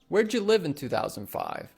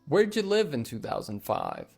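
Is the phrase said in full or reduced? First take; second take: reduced; reduced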